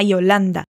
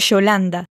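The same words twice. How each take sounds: First: The Y sounds like an ee. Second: The Y sounds like a sh. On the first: "Agora, com o som de I" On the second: "Vamos descendo aqui para a Argentina agora e fazendo o som de sh"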